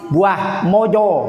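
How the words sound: The vowels are rounded 'o' sounds.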